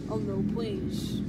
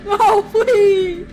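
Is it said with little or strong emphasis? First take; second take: little; strong. First: It is said with little emphasis. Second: It is said with strong emphasis.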